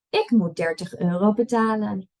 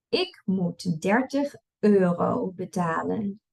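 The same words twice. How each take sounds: First: It is read at a fast pace. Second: It is read at a slow pace. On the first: "and then I'll read it fast" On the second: "I'll read it slow first"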